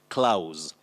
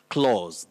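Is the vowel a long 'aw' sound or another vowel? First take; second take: another vowel; long aw. First: The vowel is not a long 'aw' sound. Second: The vowel is a long 'aw' sound. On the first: The speaker calls it wrong. "that is not the good or the accurate pronunciation of this word" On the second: The speaker calls it right. "A and U represent the long sound O"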